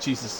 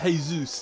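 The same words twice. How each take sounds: First: The name is said the ordinary English way. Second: The name is said like the footballer's name. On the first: "Jesus is much funnier" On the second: "like the footballer"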